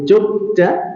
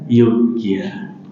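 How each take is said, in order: First: The name starts with a heavy, thick sound. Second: The name starts with a light, soft sound. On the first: "Kalau pengen ngandel nih" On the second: "kalau pengen meringankan"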